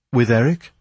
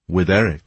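First: "With Eric?" rising on Eric as a question. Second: "With Eric." falling on Eric as a statement; confirming. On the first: Young man asks the Persian about Christine, questioning. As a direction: ask "With Eric?", lifting the end. Startled question echoed as answer. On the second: The Persian answers the young man, confirming. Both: A narrator's reading.

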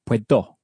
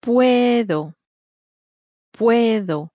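First: "puedo" with the final o stressed; stress on last syllable. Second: "Puedo" with a long, stressed first syllable. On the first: Teacher showing learners the mistake, "puedo" stressed at the end. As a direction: wrongly hit the end of "puedo". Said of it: "with the emphasis at the end". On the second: Native speaker modelling for learners, "Puedo" stressed at the beginning. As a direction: stretch and stress the start of "Puedo". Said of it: "but it's at the beginning". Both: Shown as a demonstration.

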